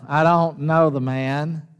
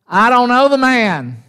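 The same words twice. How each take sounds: First: Said in the usual way. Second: Higher-pitched, emphatic denial; insistent denial. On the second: Acted. Peter to the second servant girl, insistent denial. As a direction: deny it firmly, pitch raised.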